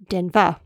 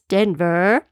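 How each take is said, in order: First: The final syllable is short and clipped. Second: The final syllable is drawn out and longer. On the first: "Australians pronounce Denver more like Denver" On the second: "Americans pronounce the ver more drawn out like ver"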